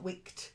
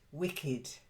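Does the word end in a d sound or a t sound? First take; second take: t sound; d sound. First: The word ends with a sharp t sound. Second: The word ends with a soft d sound. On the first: The speaker calls it wrong. "Not wicked" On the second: The speaker calls it right. "make it a d, a dull d"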